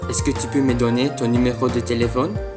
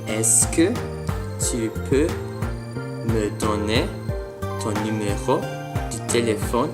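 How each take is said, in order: First: The phrase is said quickly and smoothly. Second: The phrase is said slowly, word by word. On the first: "at full speed" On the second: "slow motion"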